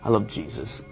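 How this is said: It sounds insincere and unloving.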